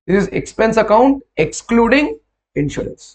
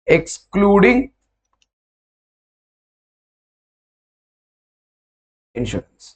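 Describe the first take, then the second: First: Said in the usual way. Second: Slow dictation. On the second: Shown as a demonstration. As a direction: spell it out slowly for writing, excluding drawn out. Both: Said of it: "Do me a favor when you write this".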